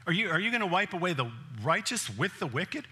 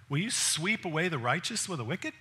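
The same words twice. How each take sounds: First: Everyday retelling of Abraham's plea; casual paraphrase. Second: Quoted as scripture, a measured plea; Abraham pleading. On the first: Preacher restates Abraham's question to God, casual and direct. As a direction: say it like a friend asking outright. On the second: Abraham questions God, a measured scriptural plea. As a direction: read Abraham's plea like the text. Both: Retold or imitated.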